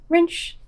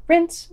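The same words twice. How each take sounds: First: "Rinse" slipped into "rinch", with a ch sound at the end; slip of the tongue. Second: "rinse" said cleanly, ending on a clear s sound; corrected word. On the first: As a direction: trip over "Rinse" so it ends like "rinch". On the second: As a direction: fix it: "rinse" with a crisp s. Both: Real, not acted. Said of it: "oops, rinse".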